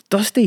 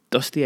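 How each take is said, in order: First: High, loud outraged echo; shouting. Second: Said in the usual way. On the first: A narrator's reading. Director throws the trainee's excuse back, shouting. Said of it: "he shouted". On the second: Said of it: "I said".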